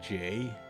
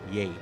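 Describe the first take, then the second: First: The name begins with a J sound. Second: The name begins with a Y sound. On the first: The speaker calls it wrong. "it's not J" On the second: The speaker calls it right. "no, it's Yay"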